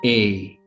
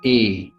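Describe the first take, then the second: First: The vowel is said the English way. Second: The same.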